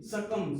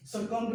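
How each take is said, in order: First: सकम ending on m; silent B in सकम. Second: सकम्ब with a released b at the end; B sounded in सकम्ब. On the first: Teacher revising, showing the right reading with b silent. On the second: Teacher revising, showing the misreading with b pronounced. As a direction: say सकम्ब wrongly, finishing on b. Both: Shown as a demonstration. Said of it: "सकम्ब नहीं".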